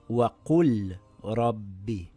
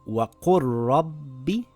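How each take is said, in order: First: The l is pronounced separately. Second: The l is dropped into the following r. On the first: The speaker calls it wrong. "and not" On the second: The speaker calls it right. "we drop the lam and read it as"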